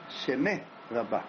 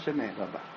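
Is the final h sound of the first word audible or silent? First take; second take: audible; silent. First: The final h of the first word is audible. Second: The final h of the first word is silent. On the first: The speaker calls it right. "התגדל והתקדש שמה רבה" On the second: The speaker calls it wrong. "לא שמה רבה"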